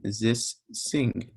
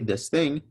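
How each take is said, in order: First: The word starts with an s sound. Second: The word starts with a th sound. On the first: "they're going to say this sing" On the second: "you tell them to say this thing"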